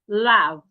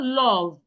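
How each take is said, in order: First: The vowel is said with unrounded, slightly open lips. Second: The vowel is said with rounded, wide-open lips. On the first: The speaker calls it right. "it is love. ... my mouth ... is not rounded" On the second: The speaker calls it wrong. "So it is not love"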